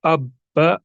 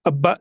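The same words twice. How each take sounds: First: अब्बा with a stop held before the second ब; pause on the doubled ब. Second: अब्बा said without the break on the doubled ब; wrong way, run together. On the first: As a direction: break अब्बा at the doubled letter. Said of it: "इसी तरह यहाँ पर भी". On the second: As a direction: slur अब्बा into one smooth beat. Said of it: "अब्बा नहीं करेंगे". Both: Shown as a demonstration.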